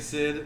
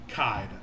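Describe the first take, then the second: First: The name begins with an S sound. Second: The name begins with a K sound. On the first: This is how some other people say it. "some people say Sid, which makes sense" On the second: This is how the speaker's group said it as kids. "we always called him Kaid"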